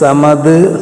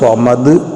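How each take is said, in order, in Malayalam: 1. ഈ വാക്ക് ലഘുവും സാധാരണവുമായ s ശബ്ദത്തിലാണ് തുടങ്ങുന്നത്. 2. ഈ വാക്ക് ഘനവും ഊന്നലുള്ളതുമായ s ശബ്ദത്തിലാണ് തുടങ്ങുന്നത്. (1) "ഇങ്ങനെ മഖ്റജ് ഉച്ചാരണം മാറിപ്പോയാലും അതിൻ്റെ ഫലം, അതിൻ്റെ ഗുണം ലഭിക്കുകയില്ല" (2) "സ്വാദ് അപ്പൊ സ്വമദ് എന്ന രൂപത്തിൽ പറയാണ്"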